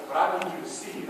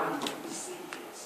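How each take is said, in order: First: Said in the usual way. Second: Intense whisper. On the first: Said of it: "I mean, I need you to see it". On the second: Shown as a demonstration. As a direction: repeat "see it" in a soft, breathy whisper.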